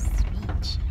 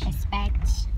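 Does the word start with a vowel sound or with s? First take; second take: s; vowel. First: The word starts directly with the s sound. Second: An extra vowel sound comes before the s. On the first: The speaker calls it right. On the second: The speaker calls it wrong.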